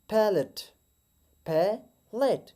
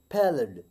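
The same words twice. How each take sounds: First: पैलेट higher with a hard t, second very slow; wrong take, पैलेट ending in t; wrong palate. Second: पैलेट lower, t flapped to a d; right palate. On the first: Teacher demonstrates the wrong पैलेट. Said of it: "इसका wrong pronunciation". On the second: Teacher models पैलेट with a flat d. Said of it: "हम टी को flat डी pronounce करेंगे". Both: Shown as a demonstration.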